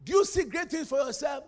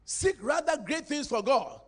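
First: You leaned on, rising question; stress on you. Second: Rather stretched and weighted, slow; slow down and hit rather; stress on rather. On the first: Preacher challenges congregation, leaning on you. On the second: Preacher urges the church, stressing rather. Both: Shown as a demonstration. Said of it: "Don't seek them".

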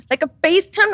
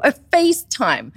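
First: A FaceTime, said much higher and louder with a rising tune; rising disbelief. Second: A FaceTime, said slow, loud and higher with a hard fall; heavy stressed phrase. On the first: Telling friends about the call, a FaceTime with a high rising tune. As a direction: push a FaceTime up into a shocked rise. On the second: Telling friends about the call, a FaceTime slow and falling. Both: Retold or imitated.

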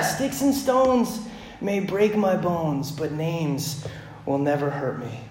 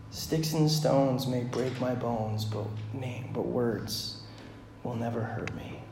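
First: Put-on slow, savoring recital of an old saying; lingering, fond slow recital; savoring the rhyme. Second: Softer, slow, disillusioned saying; quiet, hollow repeat of the rhyme; bitter, quiet recital. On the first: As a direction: relish each word like a comforting mantra. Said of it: "man, they sound so good". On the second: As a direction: say it like you no longer believe it. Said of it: "If only that was true". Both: Shown as a demonstration.

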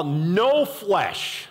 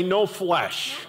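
First: "no flesh" with NO hit and falling; stress on no flesh. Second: "no flesh" again, NO leaned on, falling; repeated emphasis. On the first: Preacher repeating "no flesh" to drive it home, NO stressed. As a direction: land on "no" in "no flesh". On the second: Preacher echoing "no flesh" for the congregation, NO stressed. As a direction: say "no flesh" once more, weight on "no". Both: Shown as a demonstration.

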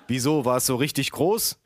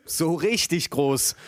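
First: Said in the usual way. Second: "So richtig groß" slow and drawn out, higher; emphatic confirmation. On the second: Acted. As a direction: stretch "richtig" for sheer size. Emphatic answer echoing the question.

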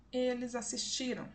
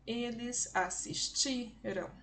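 First: Said in the usual way. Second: "Eles assistiram" slowly, stretching the TI; stress on penultimate syllable. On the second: Shown as a demonstration. Teacher demonstrating the strongest syllable, slow stressed "ti" in "assistiram". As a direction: draw out the "ti" in "assistiram" for learners. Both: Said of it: "A sílaba mais forte é a penúltima".

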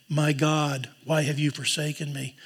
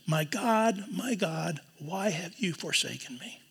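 First: Said in the usual way. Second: Pleading, fading out; anguished cry. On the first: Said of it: "He doesn't say". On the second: Shown as a demonstration. Jesus on the cross crying out to God, soft anguish. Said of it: "But he says".

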